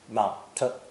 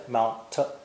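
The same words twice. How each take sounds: No difference in how they are said.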